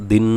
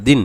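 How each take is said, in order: First: দিন with the final n held as a long nasal hum; hummed, over-long ending on দিন; wrong ghunnah. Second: Said in the usual way. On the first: Shown as a demonstration. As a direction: mimic the learner's mistake, dragging the n of দিন. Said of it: "এরকম গুণনা হয়ে যায়". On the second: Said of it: "খেয়াল করবেন যেন আপনার কোনো সময় টান না হয়ে যায়".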